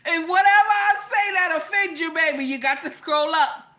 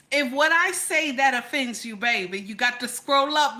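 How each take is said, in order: First: Higher, louder insistence; loud, high-pitched telling-off; emphatic warning. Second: Said in the usual way. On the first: Real, not acted. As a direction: raise your voice to drive the warning home. Emphatic repeat of warning to viewers.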